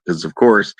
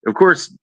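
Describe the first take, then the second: First: Said in the usual way. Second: "course" pushed up high with a rising tune; a higher, sarcastic "of course". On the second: Retold or imitated. Sarcastic aside about money.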